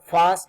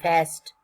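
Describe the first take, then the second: First: The vowel in the word is long. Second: The vowel in the word is short. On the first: This is how British speakers say it. "British Britisher uh, use, they use uh, long vowel sound" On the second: This is how American speakers say it. "American use uh, short vowel sound"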